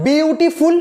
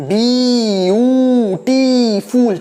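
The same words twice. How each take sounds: First: Said in the usual way. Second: beautiful stretched into four long, separate syllables. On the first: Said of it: "কিন্তু যদি বলি". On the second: Shown as a demonstration. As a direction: say beautiful very slowly, a breath for each syllable. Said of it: "চারবার শ্বাস নিতে হয়".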